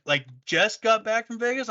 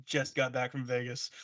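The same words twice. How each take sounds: First: High questioning repeat; disbelieving, pitch up; mock disbelief; incredulous echo. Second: Soft, flat restatement; mumbled deadpan; deadpan reply. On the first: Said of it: "They're like". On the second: Retold or imitated. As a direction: drop it quietly, matter-of-fact. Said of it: "I'm like".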